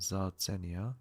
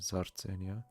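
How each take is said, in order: First: Standard German accent, the R is not rolled. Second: Swiss German accent, the R is rolled. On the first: "Sartzenia in German" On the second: "in Swiss German accent it would be"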